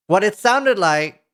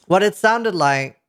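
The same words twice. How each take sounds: The two takes are said the same way.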